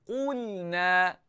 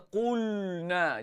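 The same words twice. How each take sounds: First: "Qulna" with heavy Q and light L; thin lam. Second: "qulna" with the lam said thick and heavy; wrong heavy lam. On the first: Teacher showing correct reading, "Qulna" with thin lam. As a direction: spread the lips for a thin L in "Qulna". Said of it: "Lam nipis seringaikan bibir". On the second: Teacher showing what to avoid, "qulna" with heavy lam. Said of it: "jangan baca qulna". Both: Shown as a demonstration.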